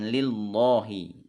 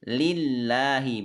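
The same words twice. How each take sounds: First: The 'lah' sound is heavy and thick. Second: The 'lah' sound is light and thin. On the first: The speaker calls it wrong. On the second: The speaker calls it right. "maka Allahnya dibaca tipis"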